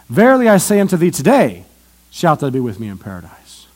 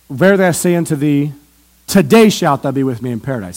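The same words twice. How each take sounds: First: The pause comes after the word today. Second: The pause comes before the word today.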